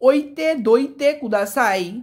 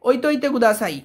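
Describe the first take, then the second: First: The verb is said in its full form. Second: The verb is said in a contracted form. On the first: "মানে ফিরিয়ে রাখুন দয়া করে" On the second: "স্পিডে বলার ক্ষেত্রে ওইতইতে হয়ে যায়"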